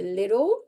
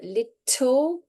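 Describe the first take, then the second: First: The middle consonant is a soft d. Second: The middle consonant is a clear t. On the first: "softens to" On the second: "the T uh, can often blur to a soft D sound"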